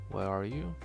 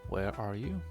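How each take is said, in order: Both takes have the same delivery.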